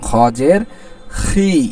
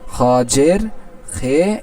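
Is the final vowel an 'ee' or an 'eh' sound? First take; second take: ee; eh. First: The final vowel sounds like 'ee'. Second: The final vowel sounds like 'eh'. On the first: The speaker calls it right. "বরং খ জের খি" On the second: The speaker calls it wrong. "ঠিক হলো না, এটা ভুল"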